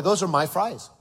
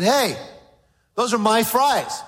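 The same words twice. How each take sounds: First: Put-on half-hearted little boy voice; mock child. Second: A hint of a whiny little boy, higher; lightly voiced boy claiming his fries; eight-year-old boy. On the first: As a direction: say it like a kid, lightly. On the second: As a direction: play a possessive young son. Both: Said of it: "About an eight-year-old boy".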